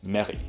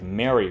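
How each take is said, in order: First: The R is rolled like a double R. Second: The R is a plain English R.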